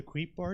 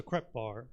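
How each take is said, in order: First: "Creep" rhyming with sleep, where crepe is meant; crepe mispronounced creep. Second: "crepe" corrected from creep, open e vowel; crepe pronounced correctly. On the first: Acted. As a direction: say "Creep" with a long ee. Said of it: "do creep instead of crepe". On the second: Real, not acted. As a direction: say "crepe" with a short e, like "step". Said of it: "sorry, I meant, uh, crepe".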